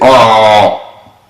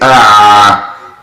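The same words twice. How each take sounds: First: The Ain sound is thick and heavy. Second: The Ain sound is thin and light. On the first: The speaker calls it wrong. "We don't say ah" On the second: The speaker calls it right. "We say ah"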